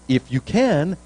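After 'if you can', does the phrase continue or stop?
continues. The phrase runs straight on into more words. Everything is possible for someone who believes. The speaker calls it wrong. "I think Jesus didn't say"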